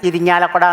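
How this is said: Every syllable of the name is pronounced. "ഇരിഞ്ഞാലക്കുട എന്ന് അവർ തികച്ചു പറയൂല"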